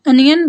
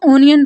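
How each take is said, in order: First: अनियन begins with a short open "uh", as "UN-yun"; correct pronunciation. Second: ओनियन begins with a long rounded "oh", as "OH-nee-un"; common wrong pronunciation. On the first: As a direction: say अनियन correctly, starting with "uh" and not "oh". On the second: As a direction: say ओनियन the way many people mispronounce it, "oh-nee-un". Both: Shown as a demonstration. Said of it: "ओनियन ठीक pronunciation नहीं है".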